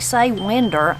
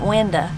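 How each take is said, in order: First: The word ends with an 'er' sound. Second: The word ends with an 'uh' sound. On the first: "I don't actually say winder" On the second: "I put a uh on the end of it"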